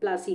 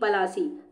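First: The p and the l form one cluster. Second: A short vowel separates the p and the l. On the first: This is the form changed by English speakers. "अंग्रेजों के pronunciation की वजह से ये प्लासी हो गया" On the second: This is the original local name of the place. "ये जगह थी पलासी"

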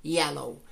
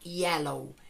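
First: The word begins with a y glide sound. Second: The word begins with a y glide sound.

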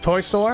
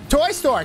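First: It is said flatly, without enthusiasm. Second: It is said eagerly, with enthusiasm.

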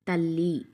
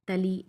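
First: The l sound is long and doubled. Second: The l sound is short and single. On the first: It is a meaningful word. The speaker calls it right. "వత్తి పట్టి పలికి చదివితేనే దానికి ఒక meaning అనేది వస్తుంది" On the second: It has no meaning. The speaker calls it wrong. "ఒత్తి పట్టి చదవకపోతే ఎలా ఉంటుందో చూడండి"

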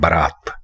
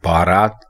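First: The first vowel is a short 'a'. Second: The first vowel is a long 'aa'. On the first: The speaker calls it right. "बा के बाद अलिफ की कोई गुंजाइश नहीं है" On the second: The speaker calls it wrong. "ये लफ्ज बारात हरगिज नहीं है"

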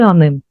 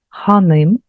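First: The initial h sound is swallowed and dropped. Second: The word begins with an audible h sound. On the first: "ми начебто проковтуємо ось цю початкову літеру хе" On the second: "звертання до жінки ханим"

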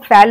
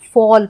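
First: The vowel sounds like the 'a' in fan. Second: The vowel sounds like the 'aw' in saw. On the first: The speaker calls it wrong. "हम फैल नहीं पढ़ेंगे" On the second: The speaker calls it right. "हम फॉल पढ़ते हैं"

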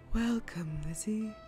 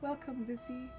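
First: It is said in a deep, godlike voice. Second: It is said in her normal voice.

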